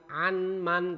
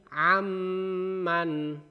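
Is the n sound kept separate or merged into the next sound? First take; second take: separate; merged. First: The n is pronounced clearly before the m. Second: The n merges into a held, nasal m. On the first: The speaker calls it wrong. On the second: The speaker calls it right. "ditahan dua harokat"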